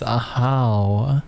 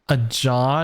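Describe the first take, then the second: First: The middle consonant is an H sound. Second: The middle consonant is a J sound. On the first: The speaker calls it right. "No, it's not a jaw. It's Ahau" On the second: The speaker calls it wrong. "I thought it was pronounced like a jaw"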